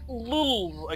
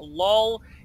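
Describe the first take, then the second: First: The word is said as lulz, ending in z. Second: The word is said like lol, ending in l. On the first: The speaker calls it right. "It's Lulz" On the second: The speaker calls it wrong. "it is not LOL"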